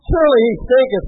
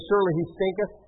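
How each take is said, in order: First: Louder, higher mock-solemn quote; amused declaiming. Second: Said in the usual way. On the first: Preacher relishes the King James wording, amused declaiming. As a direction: proclaim the old wording for comic effect. Repeats the funny line for effect.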